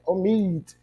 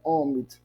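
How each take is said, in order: First: The stress is on the last syllable. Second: The stress is on the first syllable. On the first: The speaker calls it right. "é omit" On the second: The speaker calls it wrong. "Não é omit"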